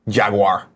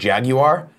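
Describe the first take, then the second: First: The word is said in an American way. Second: The word is said in a British way. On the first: "Here in America, we don't want to work that hard. We say Jaguar" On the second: "If you're in UK and you pronounce it Jaguar"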